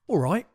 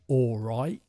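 First: It is said quickly at normal speed. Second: It is said slowly and drawn out. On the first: "Notice the pronunciation. It's very lazy" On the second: "If I slow it down"

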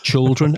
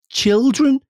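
First: The first syllable sounds like "chul". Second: The first syllable sounds like "chil". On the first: The speaker calls it wrong. "I'm pronouncing it C-H-U-L. It's like children. And that's what I do" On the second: The speaker calls it right.

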